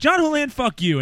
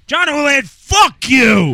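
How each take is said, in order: First: It is said loosely, drunk and mild. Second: It is said harshly, with venom.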